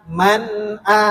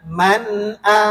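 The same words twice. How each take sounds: Both takes have the same delivery.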